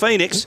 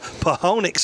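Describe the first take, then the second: First: It is said normally, starting with an F. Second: It is sounded out, starting with a P. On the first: The speaker calls it right. "but it's Phoenix" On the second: The speaker calls it wrong. "That's how you that's how you physically pronounce it"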